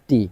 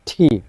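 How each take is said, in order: First: The t is plain with no puff of air. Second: The t has a strong puff of air. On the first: The speaker calls it wrong. "Bangla টয়ের মতো করে" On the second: The speaker calls it right. "শুদ্ধভাবে হবে ঠি"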